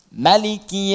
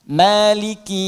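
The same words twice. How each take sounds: First: The first vowel is kept short. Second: The first vowel is held long. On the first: "boleh dibaca pendek di mimnya" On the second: "Maliki bisa dibaca panjang, dua harakat mad tabi'i"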